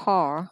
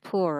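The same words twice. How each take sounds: First: "poor" with an open aw sound, like "paw"; aw-vowel variant. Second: "poor" with an oo sound, "pu-ờ"; oo-vowel variant. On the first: Teacher giving the second of two readings, aw vowel. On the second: Teacher giving the first of two readings, oo vowel. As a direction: round "poor" toward "poo-er". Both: Shown as a demonstration. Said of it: "nó có hai cách đọc".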